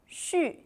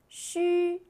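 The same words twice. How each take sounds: First: The pitch falls sharply from high. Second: The pitch stays high and level.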